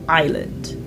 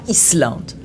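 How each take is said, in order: First: The s in the middle is silent. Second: The s in the middle is pronounced. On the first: The speaker calls it right. "c'est island" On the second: The speaker calls it wrong. "On ne dit pas Islande"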